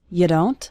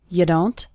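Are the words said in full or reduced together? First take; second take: reduced; reduced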